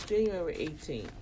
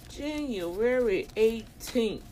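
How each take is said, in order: First: Said in the usual way. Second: JANUARY EIGHTEENTH drawn out slowly, higher; slow, weighty "January eighteenth", each word separate; emphatic repeat. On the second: Real, not acted.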